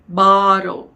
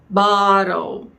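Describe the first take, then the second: Both takes have the same delivery.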